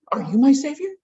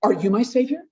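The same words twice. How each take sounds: First: Second "Are you my savior?" pitched higher, stressing "my"; pleading more on "my"; desperate parent, pleading harder. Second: Desperate parent. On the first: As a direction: beg again, leaning on "my". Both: Retold or imitated. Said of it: "the desperate parent going".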